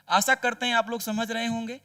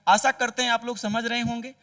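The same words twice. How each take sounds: The two takes are said the same way.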